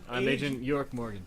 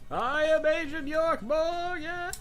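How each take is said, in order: First: The line is spoken calmly at normal volume. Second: The line is screamed loudly with high energy. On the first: "It doesn't sound as good when I'm not running and screaming it" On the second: "I just imagine him screaming every time he knocks"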